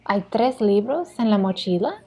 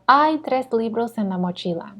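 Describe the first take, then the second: First: The voice rises at the end. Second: The voice falls or stays flat at the end. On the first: It asks whether there are three books in the backpack. "this rising intonation for the yes or no" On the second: It states that there are three books in the backpack. "if we're just giving information"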